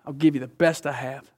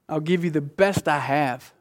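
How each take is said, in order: First: "give" carries the weight, "best" eased back; stress on give. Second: The word "best" pushed out clearly, rest even; stress on best. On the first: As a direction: lean on "give" as an offer. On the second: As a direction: lean into "best" as the promise. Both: Acted. Repeating the father's promise.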